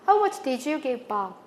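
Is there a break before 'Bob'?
no. It runs as one unbroken phrase. It asks how much was given to Bob.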